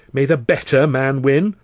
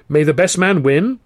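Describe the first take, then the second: First: "better" stressed as a correction; corrective stress. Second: Forced words through gritted teeth. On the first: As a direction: lean on "better" correcting him. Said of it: "I corrected him". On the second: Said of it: "said through gritted teeth". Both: Acted.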